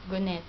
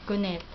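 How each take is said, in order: Both takes have the same delivery.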